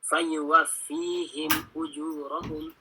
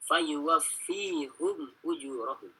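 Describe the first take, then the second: First: The first word ends with a 'him' sound. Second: The first word ends with a 'hum' sound. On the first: This is one traditional reading of the verse. "Kalau Hafs caranya" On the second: This is another traditional reading of the verse.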